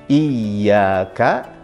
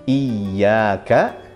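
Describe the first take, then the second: Both takes have the same delivery.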